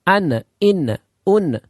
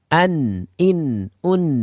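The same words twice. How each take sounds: First: The final n sound bounces back. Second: The final n sound keeps sounding on. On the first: The speaker calls it wrong. "terjadinya pantulan ... Enggak boleh" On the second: The speaker calls it right. "yang benar adalah ... Jadi ada suara yang masih berjalan"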